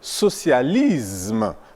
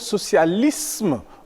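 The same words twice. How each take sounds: First: The s before m sounds like z. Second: The s before m sounds like s. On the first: The speaker calls it wrong. "évite de dire" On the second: The speaker calls it right. "mais plutôt"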